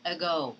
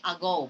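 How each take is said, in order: First: "ago" starting with a short uh; weak schwa in "ago". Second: "ago" starting with a full ah; the wrong way, stressed a. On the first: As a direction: correct schwa. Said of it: "but you say ago". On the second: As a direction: mistaken full vowel. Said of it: "You do not say ago". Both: Shown as a demonstration.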